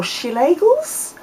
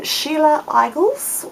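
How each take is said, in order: First: "Sheila Eigels" as shee-LAY-gulz, run together, rising like a question; alternative name attempt. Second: "Sheila Eigels" as SHEE-la EYE-gulz, rising like a question; tentative name attempt. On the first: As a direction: try "Sheila Eigels" with a LAY sound in the middle, unsure. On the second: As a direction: try "Sheila Eigels" slowly, Eigels starting like "eye". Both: Shown as a demonstration. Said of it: "if I'm gonna say this wrong".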